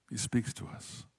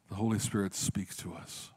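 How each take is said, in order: First: Whispered, slow and soft; hushed whisper. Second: Said in the usual way. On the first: Shown as a demonstration. Pastor to congregation, hushing the key line to a whisper. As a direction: let it drop to a breath for effect. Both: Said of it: "repeats the line as a whisper".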